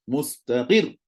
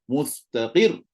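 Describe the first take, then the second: No difference in how they are said.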